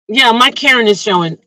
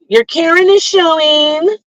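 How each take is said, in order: First: Said in the usual way. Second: High, singsong mock call-out; mock accusation. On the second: Someone calling out her Karen moment, mock accusing. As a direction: mimic a high-pitched busybody calling someone out.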